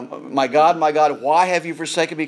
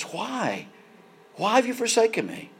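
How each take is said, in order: First: Said in the usual way. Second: A mild, higher anguished cry on "Why have you forsaken me"; cry of Jesus. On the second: Retold or imitated. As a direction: let "Why" break off softly, then lift it into a pleading cry. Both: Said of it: "Can you imagine the cry of Jesus".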